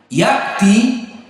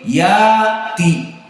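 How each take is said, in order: First: A glottal stop closes the first syllable. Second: The first vowel is lengthened with no stop. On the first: "hamzahnya dihilangkan dan diganti menjadi alif" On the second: "diganti menjadi alif menjadi ya'ti"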